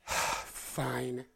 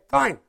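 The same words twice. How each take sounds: First: It is said with a sigh. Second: It is said without a sigh.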